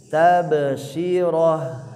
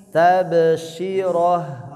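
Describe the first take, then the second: Both takes have the same delivery.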